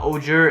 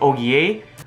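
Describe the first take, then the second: First: The name is pronounced in an English way. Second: The name is pronounced in a French way. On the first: The speaker calls it wrong. "it's not Ogier" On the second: The speaker calls it right. "these guys are French, so just like how it's Oliver, it's Olivier"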